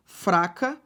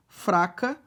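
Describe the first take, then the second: No difference in how they are said.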